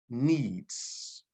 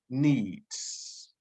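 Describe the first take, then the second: First: Needs. whispered with no voice, falling. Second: Said in the usual way. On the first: Shown as a demonstration. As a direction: breathe the word Needs. as a whisper. Repeating a key word twice.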